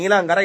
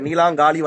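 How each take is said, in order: First: The name ends with a short 'gara' sound. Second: The name ends with a long 'gaali' sound. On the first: The speaker calls it wrong. "நீலாங்கர இல்ல" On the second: The speaker calls it right. "கரெக்டா சொல்லு"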